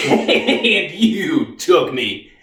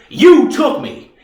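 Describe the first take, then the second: First: Slow words broken by a laugh; bitter laughing accusation. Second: Slow, high, loud accusation; accusing outburst. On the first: Reeves repeats his charge at the Army, bitterly laughing and slow. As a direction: laugh bitterly through the blame. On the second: Reeves accuses the Army of taking him, loud and angry. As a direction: throw the blame hard and slow. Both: Acted.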